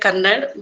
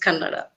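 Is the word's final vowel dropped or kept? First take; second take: dropped; kept. First: The word ends without its final vowel. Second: The word ends with its final vowel sounded. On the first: This is how most other people say it. The speaker calls it wrong. "Most of the people pronounce like Kannad" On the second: This is how native speakers say it. The speaker calls it right. "but uh, my native language is Kannada"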